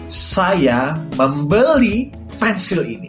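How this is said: The word membeli is stressed. The action was buying, not selling or trading. "Aku menekankan pada kata membeli"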